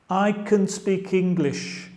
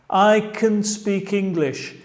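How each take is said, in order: No difference in how they are said.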